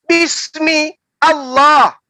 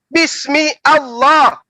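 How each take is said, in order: The two takes are said the same way.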